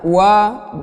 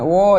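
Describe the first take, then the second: First: The vowel is an open a sound. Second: The vowel is a rounded o sound. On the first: The speaker calls it right. "wa-nya dibaca dengan terbuka mulutnya" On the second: The speaker calls it wrong. "bukan wo"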